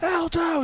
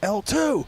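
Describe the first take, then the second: First: The call is said at its loudest. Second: The call is said more loudly than before. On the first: The call is repeated again, still without a response. "and then louder" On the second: The call is repeated because there was no response. "and then louder"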